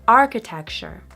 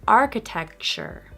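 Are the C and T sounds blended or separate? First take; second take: blended; blended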